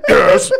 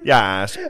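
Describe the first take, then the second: First: Louder, eager yes; "Yes." said louder, eager and emphatic. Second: Said in the usual way. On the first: Retold or imitated. Fifth grader answering teacher, louder eager "Yes.". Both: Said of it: "pretend to be like".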